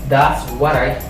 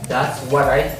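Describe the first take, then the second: No difference in how they are said.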